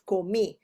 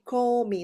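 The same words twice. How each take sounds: First: The stress is on the last syllable. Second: The stress is on the first syllable. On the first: The speaker calls it right. "instead of comi" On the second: The speaker calls it wrong. "if you don't put the accent, it will be comi"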